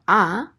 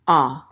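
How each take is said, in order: First: "a" as an open ah; modern ah vowel. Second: "a" as a rounded aw, like A W; ancient aw vowel. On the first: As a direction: say "a" as modern Hebrew kamatz, ah. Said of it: "So instead of a". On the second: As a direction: say "a" as the historical kamatz, aw. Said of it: "like A W". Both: Shown as a demonstration.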